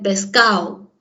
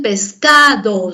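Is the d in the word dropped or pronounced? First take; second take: dropped; pronounced. First: The d between the last vowels is dropped. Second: The d between the last vowels is pronounced. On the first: "La elición de la D" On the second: "no dicen pescado"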